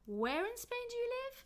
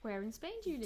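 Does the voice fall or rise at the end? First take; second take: rise; fall. First: The pitch rises and stays high to the end. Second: The pitch falls at the end of the question. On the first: The asker missed or forgot an earlier answer. "the intonation goes up on where and it stays up" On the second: The asker wants new information about the place. "The intonation goes down because do you live is is not important"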